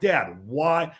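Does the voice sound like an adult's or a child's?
adult. It is said in a normal adult voice.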